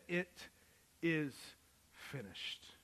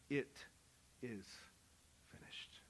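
First: Slow, weighty reading of the final words; solemn last words. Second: Hushed, fading whisper of the last word. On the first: Preacher quoting Jesus's last cry, slow and solemn. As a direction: let the words land slowly. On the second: Preacher whispering Jesus's final words on the cross. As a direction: let "finished" die away in a whisper. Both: Acted.

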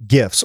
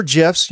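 First: "gifs" with a hard g, as in gift; hard-g pronunciation. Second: "gifs" with a soft g, like "jifs"; soft-g pronunciation. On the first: Host reading a tweet aloud, "gifs" with hard g. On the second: Host offering the other reading, "gifs" with soft g. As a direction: say "gifs" starting with a j sound. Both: Shown as a demonstration. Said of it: "whatever you wanna call it".

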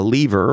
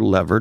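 First: Lever said as LEE-ver; long-e pronunciation. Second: Lever said as LEV-er; short-e pronunciation. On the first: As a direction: say lever with a long ee, rhyming with beaver. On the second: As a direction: say lever with a short e, rhyming with never. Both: Shown as a demonstration. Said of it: "depending on whether you're a lever or a lever".

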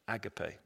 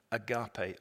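First: Agape said the English way, /æɡəpeɪ/, stress on the first syllable; agape as AG-uh-pay; English pronunciation. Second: Agape said the Greek way, /əɡɑpeɪ/, stress on the second syllable; agape as ah-GAH-pay; Greek pronunciation. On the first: Preacher contrasting the English reading, agape said AG-uh-pay. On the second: Preacher giving the Greek word agape, said ah-GAH-pay. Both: Shown as a demonstration. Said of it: "or as the English say".

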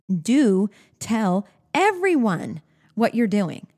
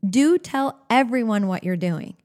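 First: Slow and deliberate, a pause after each word. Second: Said in the usual way. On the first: Shown as a demonstration. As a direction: announce the rule one word at a time. Rule given slowly, then repeated.

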